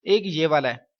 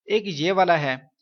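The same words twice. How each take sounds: The two takes are said the same way.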